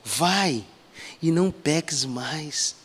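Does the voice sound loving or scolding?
loving. It is said in a gentle, loving tone. The speaker is showing deep love to the listener. The speaker calls it right. "eu vejo tanto amor carregado"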